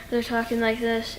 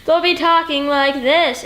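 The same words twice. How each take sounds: First: Softly, holding it in like a tender film scene; quiet emotional delivery. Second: Slow and louder, projecting to the back row; loud stage delivery. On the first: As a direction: murmur it gently, much softer. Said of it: "they portray a lot of emotion like this". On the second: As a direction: overdo it like a stage actor, slowly. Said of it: "why are you talking like that". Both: Shown as a demonstration.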